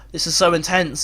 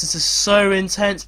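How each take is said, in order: First: Said in the usual way. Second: So drawn out slowly; slower repeat leaning on a long so; stress on so. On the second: Real, not acted. Commentator feels the extra-time tension, so stretched out.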